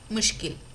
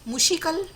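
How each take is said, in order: First: The sh and k sounds are joined directly. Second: An extra i vowel separates sh and k. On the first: The speaker calls it right. "सही शब्द है मुश्किल" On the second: The speaker calls it wrong. "और तीसरा है मुशिकल"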